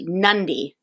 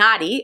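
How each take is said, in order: First: The d comes with an n sound before it. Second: The d comes with no n sound before it. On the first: The speaker calls it right. "but it's actually" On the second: The speaker calls it wrong. "we were saying"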